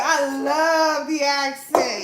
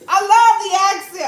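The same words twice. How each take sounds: First: Drawn out slowly, savoring each word; slow fond repeat. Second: Louder, higher gush over the accent; loud fond gushing. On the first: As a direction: linger on it dreamily. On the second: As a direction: say it with a burst of delight. Repeats line. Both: Real, not acted.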